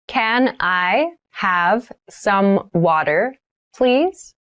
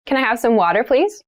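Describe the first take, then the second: First: Slow, drawn-out model sentence; slow careful repeat. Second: Said in the usual way. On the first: Shown as a demonstration. Teacher models asking for water, very slowly. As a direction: spell it out slowly for beginners. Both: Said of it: "vocabulary drill, repeated for learners".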